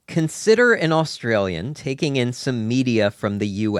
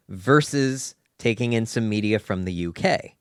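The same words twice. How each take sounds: First: "U" stressed as the first half of a contrast, tune held level; measured stress on "U", laying out the first option. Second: "versus" leads and "U K" gets the stress, tune rising at the end; contrast stress on U K. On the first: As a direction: set up "the U" with steady weight, ready to contrast. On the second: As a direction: lean on "U K" as the contrasting second option with a rise. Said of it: "consider an Australian taking in some media from the U S". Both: Shown as a demonstration.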